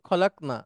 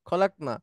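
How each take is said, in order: The two takes are said the same way.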